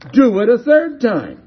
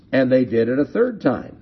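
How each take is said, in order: First: High, loud order; commanding. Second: Said in the usual way. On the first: Acted. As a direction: shout the instruction out to the crowd. Prophet's order repeated, acted out.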